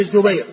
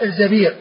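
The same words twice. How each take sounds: First: الزبير with short u, then ay; diminutive-form الزبير, zu-BAYR; damma on the zay. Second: الزبير with short a, then long ee; الزبير rhyming with amīr; fatha on the zay. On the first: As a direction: say الزبير as Zubayr. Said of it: "بضم الزاي مصغر". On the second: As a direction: say الزبير as Zabīr. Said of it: "بفتح الزاي على وزن أمير". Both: Shown as a demonstration.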